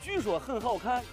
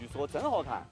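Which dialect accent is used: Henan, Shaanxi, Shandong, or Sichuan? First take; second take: Shaanxi; Shandong. First: It is spoken with a Shaanxi dialect accent. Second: It is spoken with a Shandong dialect accent. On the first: "陕西话" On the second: "山东话"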